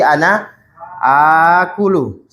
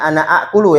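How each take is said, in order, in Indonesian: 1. Vokal pertama pada akulu panjang. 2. Vokal pertama pada akulu pendek. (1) "kaidahnya ini dipanjangkan akulu untuk ana"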